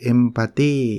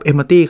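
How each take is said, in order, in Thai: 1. พูดแบบเรียบๆ ไม่ค่อยมีพลัง 2. พูดด้วยน้ำเสียงมีชีวิตชีวาและมีพลังมาก (1) "ถ้าผมพูดแบบนี้" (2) "พอฟังผมใส่พลังเข้าไป"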